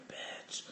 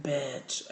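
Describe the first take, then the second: First: Hushed whispered call. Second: Said in the usual way. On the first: Retold or imitated. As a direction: whisper the word urgently. Partner repeats, whispered.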